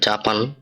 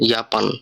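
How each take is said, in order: First: The word begins with a J sound. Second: The word begins with a Y sound. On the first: The speaker calls it wrong. "এখানে লেখা জাপান" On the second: The speaker calls it right. "জাপানের উচ্চারণটা হবে ইয়াপান"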